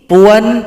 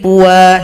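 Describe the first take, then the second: First: The word ends with a short vowel and n. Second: The word ends with a vowel held two beats. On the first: The reading continues without stopping. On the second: The reader stops at this word.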